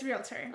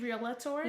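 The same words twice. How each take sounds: First: No vowel is inserted between l and t. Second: An extra vowel is inserted between l and t. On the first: The speaker calls it right. "there's no A" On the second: The speaker calls it wrong. "I used to say realtor"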